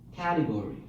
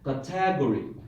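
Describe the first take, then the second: First: The stress is on the first syllable. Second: The stress is on the second syllable. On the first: The speaker calls it right. "How about the first syllable?" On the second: The speaker calls it wrong. "Second syllable"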